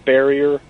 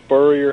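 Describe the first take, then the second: First: The first syllable sounds like 'sper'. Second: The first syllable sounds like 'spur'. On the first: The speaker calls it wrong. "and not Sperrier" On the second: The speaker calls it right. "Spurrier's last name is Spurrier"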